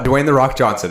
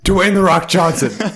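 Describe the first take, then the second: First: It is said in the speaker's normal voice. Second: It is said in an imitated celebrity voice. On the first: "Is the first one I'm gonna do is" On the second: "Okay, here we go"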